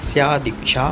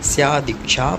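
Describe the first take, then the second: First: The two words are joined into one. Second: The two words are joined into one.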